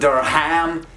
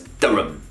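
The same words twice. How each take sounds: First: The name is said fully, with every sound. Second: The name is said short, with sounds reduced. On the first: The speaker calls it wrong. "It's not Durham" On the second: The speaker calls it right. "shorten, and overall just be lazy with the pronunciation"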